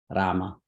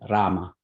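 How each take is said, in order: First: The R is said with a trill. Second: The same.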